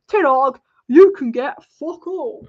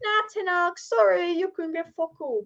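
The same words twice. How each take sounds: First: Loud, slow put-on voice of a stingy club; hammed-up loud refusal from the club; mock club brush-off. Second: Higher put-on voice, breezy fake apology; hammed-up higher voice of the board turning him down; mock dismissive club. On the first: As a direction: bellow it slowly like the board refusing him. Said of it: "They probably said". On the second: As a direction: toss it off lightly in a higher mocking voice. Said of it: "They're probably like".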